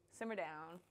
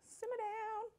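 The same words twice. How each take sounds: First: Said in the usual way. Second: Mock baby voice telling herself off; high squeaky repeat. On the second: Cook teasing herself, high squeaky voice. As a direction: squeak it up much higher.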